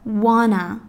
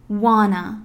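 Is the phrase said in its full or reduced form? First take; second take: reduced; reduced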